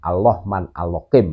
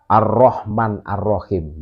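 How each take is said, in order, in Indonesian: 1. Bunyi r digantikan dengan bunyi l. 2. Bunyi r diucapkan sebagai r yang jelas. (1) "kan gitu tuh" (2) "tidak bisa mengucapkan huruf ro"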